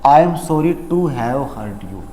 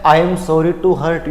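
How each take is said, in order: First: "I am sorry to have hurt you" said very slowly, falling at the end; teacher modelling the correct apology slowly; slow correct model. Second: "I am sorry to hurt you" dragged out slowly; teacher imitating how people apologise, slowly; slow imitation of common usage. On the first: Shown as a demonstration. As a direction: model the right answer slowly. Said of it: "option number B". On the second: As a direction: show how everyone says it, slowly. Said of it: "India में सब लोग sorry कैसे बोलते हैं".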